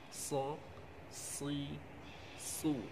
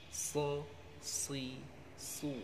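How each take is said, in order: No difference in how they are said.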